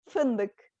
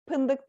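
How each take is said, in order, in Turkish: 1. Kelime f sesiyle başlıyor. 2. Kelime p sesiyle başlıyor.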